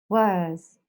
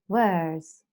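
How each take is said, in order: Both takes have the same delivery.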